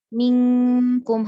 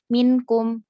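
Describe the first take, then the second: First: The n is hidden into a nasal sound. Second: The n is pronounced fully and clearly. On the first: The speaker calls it right. "harusnya dibaca ikhfa" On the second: The speaker calls it wrong. "tapi malah dibaca minkum"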